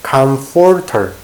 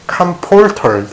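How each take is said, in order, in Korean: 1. 가운데 자음은 f 소리입니다. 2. 가운데 자음은 p 소리입니다. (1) "입이 붙으면 안 돼요. 윗입술과 아랫입술은 떨어져 있어야 됩니다" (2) "P 발음이 된다면은"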